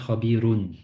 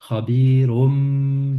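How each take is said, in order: First: The word ends with an n sound. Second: The word ends with an m sound. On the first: The reader stops after this word. "Si on s'arrête, ça fait khabirun" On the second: The reader continues into the next word. "On a donc khabirum bima ta'malun"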